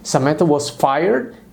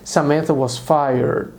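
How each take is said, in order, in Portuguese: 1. A voz sobe no final, como uma pergunta. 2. A voz cai no final, como uma afirmação. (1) "Eu disse ... um tom ascendente" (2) "Eu não disse"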